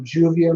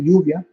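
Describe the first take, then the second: First: The name is pronounced with an English pronunciation. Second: The name is pronounced with a Spanish pronunciation. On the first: "Off the tongue" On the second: "They'll pronounce it in the Spanish way"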